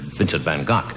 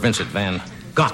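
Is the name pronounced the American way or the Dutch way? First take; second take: Dutch; American. First: The name is said with a Dutch pronunciation. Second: The name is said with a plain English pronunciation.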